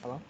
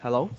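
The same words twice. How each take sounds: First: Very quiet, barely audible hello; faint, tentative mic-check hello; too soft. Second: Clearer, more audible hello, rising; speaking up. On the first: Presenter checking the audience can hear, too softly. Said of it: "too soft a bit". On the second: Presenter retrying after being asked to speak up. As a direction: project the hello a little to be heard. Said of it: "speak up". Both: Real, not acted.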